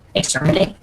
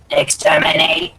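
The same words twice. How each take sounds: First: It is said in his normal voice. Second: It is said in a robotic Dalek voice.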